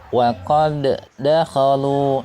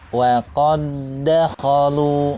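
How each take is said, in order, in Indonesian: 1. d pertama memiliki pelepasan memantul yang terdengar. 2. Kedua bunyi d menyatu tanpa memantul. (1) "jangan sampai dibaca misalnya" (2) "sehingga bunyi suara qalqalahnya tidak tampak"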